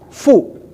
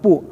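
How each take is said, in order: First: The syllable starts with a breathy f sound. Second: The syllable starts with a p sound. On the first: The speaker calls it right. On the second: The speaker calls it wrong. "bukan pu"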